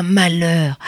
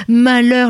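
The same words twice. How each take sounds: First: Said in the usual way. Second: Malheur said higher and louder as a lament; emphatic malheur. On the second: Acted. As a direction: cry out malheur the second time.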